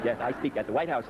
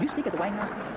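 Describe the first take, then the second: First: Said in the usual way. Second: Rising, disbelieving question; incredulous question. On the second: Retold or imitated. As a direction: ask it like you can't believe it. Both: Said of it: "They say".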